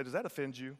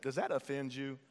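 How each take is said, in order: First: Said in the usual way. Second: Sassy "Does that offend you?", leaning on "that"; with a little sass. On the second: Shown as a demonstration. Congregation member sassing their neighbor, sassy. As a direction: give the neighbor some sass. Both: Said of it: "Get a little sass in it".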